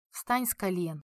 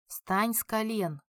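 First: Tired. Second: Cold and slow, each word measured out. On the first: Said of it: "устало произнёс Жан". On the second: Jean coldly repeats his order to kneeling Toma, slow and icy. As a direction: repeat the order slowly, without any warmth. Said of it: "холодным голосом повторил Жан". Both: A narrator's reading.

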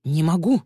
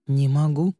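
First: Higher-pitched, flustered objection; protesting. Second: Said in the usual way. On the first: A narrator's reading. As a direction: object under pressure. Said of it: "возразил Начо". (возражая, с напором) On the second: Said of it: "сказал Начо".

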